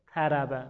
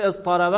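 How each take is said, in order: First: طربه said with a separate t, quiet and strained; hard unmerged form. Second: از طربه flowing with one heavy t; easy merged form. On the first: Teacher showing how hard the unmerged form is, strained. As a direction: push out the t in طربه against the heavy letters. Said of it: "خیلی سخت". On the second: Teacher showing the easy merged form, smooth. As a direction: let از طربه slide together smoothly. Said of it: "خیلی راحت تره". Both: Shown as a demonstration.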